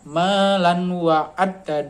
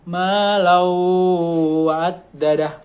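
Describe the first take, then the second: First: The n is pronounced clearly before the w. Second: The n merges into the following w sound. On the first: "kalau aslinya kan" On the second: "Jadi ma lau wa'addadah"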